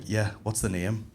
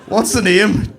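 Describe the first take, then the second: First: Soft, slow, kindly question; low-key, hushed customer service; gentle advert barista. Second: Loud, high question; hammed-up, raised-voice service; brash local barista. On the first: Acted. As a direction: ask it quietly and unhurriedly. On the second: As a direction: demand the name across the counter. Same question, rough local barista.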